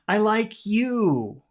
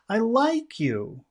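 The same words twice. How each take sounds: First: The stress falls on the word you. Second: The stress falls on the word like. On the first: "Or you could emphasize the word you" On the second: "also make it high and friendly"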